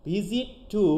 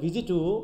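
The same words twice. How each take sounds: First: The words are said separately with full sounds. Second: The words are run together in connected speech.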